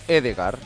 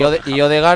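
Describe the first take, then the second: First: The name begins with an 'e' vowel. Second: The name begins with an 'o' vowel. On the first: The speaker calls it right. "Y Odegaard es Edegaard" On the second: The speaker calls it wrong. "Y Odegaard es Edegaard"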